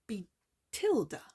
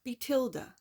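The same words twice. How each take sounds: First: "Betilda" said slowly, first stab at the stress, falling at the end; trying the stress. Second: "Betilda" said again at normal pace, the stress now chosen, falling at the end; settled stress. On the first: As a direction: sound out "Betilda" carefully, unsure where the accent goes. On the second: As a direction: say "Betilda" again with the accent decided. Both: Shown as a demonstration. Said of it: "it's where the emphasis on what syllable".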